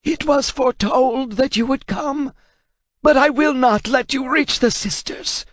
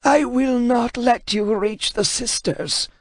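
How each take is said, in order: First: High, strained scholar's voice; defiant translator. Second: Put-on high, slow, strained old scholar voice; a frightened man refusing to yield; defiant translator. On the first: Acted. Translator warning Kratos, high and defiant. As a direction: refuse him though terrified. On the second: Translator defying Kratos, high and strained.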